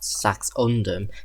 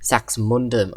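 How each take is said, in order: First: The name is said without an m sound. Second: The name is said with an m sound. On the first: The speaker calls it wrong. "not Saxundum" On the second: The speaker calls it right. "Sax Saxmundum"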